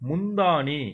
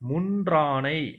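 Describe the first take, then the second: First: The word ends with a 'thaani' sound. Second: The word ends with a 'draanai' sound. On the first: The speaker calls it wrong. "அடுத்தது முந்தாணி" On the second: The speaker calls it right. "இதை முன்றானை அப்படின்னு சொல்லணும்"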